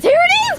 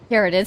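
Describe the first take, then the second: First: Sudden high, loud squeal of joy; excited. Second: Said in the usual way. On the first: Real, not acted. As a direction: burst out as the prize appears. Pull reveals the character.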